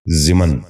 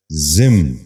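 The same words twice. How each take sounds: First: ضمن in two syllables, "zi-man"; wrong pronunciation. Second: ضمن in one syllable, "zimn"; correct pronunciation. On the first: Teacher showing viewers the mistake, wrong pronunciation. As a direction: say ضمن as ziman. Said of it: "یہ غلط تلفظ ہے". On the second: Teacher giving viewers the model, correct pronunciation. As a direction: say ضمن as zimn, no second vowel. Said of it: "درست تلفظ ہے". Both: Shown as a demonstration.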